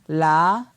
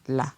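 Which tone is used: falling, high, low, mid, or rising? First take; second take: rising; low. First: The syllable is said on a rising tone. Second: The syllable is said on a low tone. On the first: "ton montant" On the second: "ton bas"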